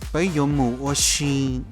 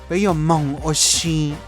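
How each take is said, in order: First: The word for go sounds like mu. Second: The word for go sounds like mong. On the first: "in Hmong Dao, we will say" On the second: "Hmong Zhuo will say"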